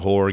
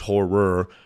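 First: The second syllable is swallowed, sounding like one syllable. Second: Both syllables are clearly pronounced. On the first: The speaker calls it wrong. "I never enunciate the second syllable, so it always sounds like I'm saying horror games" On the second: The speaker calls it right. "but it is horror"

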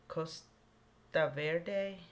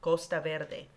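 First: The name is said with an American pronunciation. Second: The name is said with a Spanish-style pronunciation. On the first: The speaker calls it wrong. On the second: The speaker calls it right.

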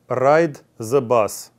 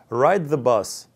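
First: One sound in the phrase is deliberately distorted. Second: Every sound in the phrase is clearly pronounced. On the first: The speaker calls it wrong. "Давайте попробуем произнести что-то неправильно" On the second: The speaker calls it right. "Давайте теперь правильно произнесу"

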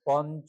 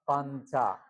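First: The first vowel is a short o sound. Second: The first vowel is a long aa sound. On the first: The speaker calls it wrong. "পঞ্চ না" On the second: The speaker calls it right. "না পাঞ্চা"

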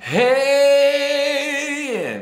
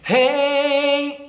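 First: The voice is pressed, with a little distortion. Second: The voice is clean and clear, without distortion. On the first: "kind of a little bit of distortion coming in" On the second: "nice and clean"

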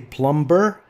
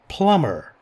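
First: The b sound is pronounced after the m. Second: The b sound is silent after the m. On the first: The speaker calls it wrong. "Don't say plumber" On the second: The speaker calls it right. "B is silent"

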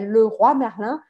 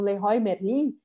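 First: It is said with a French pronunciation. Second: It is said with a Brazilian Portuguese pronunciation. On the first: This is how it is said in French. The speaker calls it right. "em francês, é Leroy Merlin" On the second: This is how Brazilians usually say it. The speaker calls it wrong. "que vocês falam Leroy Merlin"

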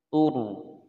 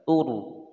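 First: The r is pronounced heavy and full. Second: The same.

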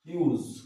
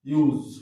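First: The word ends with a voiceless s sound. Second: The word ends with a voiced z sound. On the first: The word is used as a noun. "এটা ইউজ দন্তস্য" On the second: The word is used as a verb. "Verb যখন আমরা ইউজ করবো"

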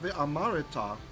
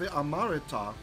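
First: A short vowel is sounded between r and t. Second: The same.

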